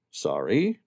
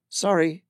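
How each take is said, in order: First: Sam's voice. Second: Higher woman's voice, polite "Sorry." with a falling end; brisk shopkeeper apology; Amira's voice. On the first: Sam to Amira, puzzled question. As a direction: lower man's voice, puzzled "Sorry?" rising. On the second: Amira to the stranger, politely apologising. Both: Acted.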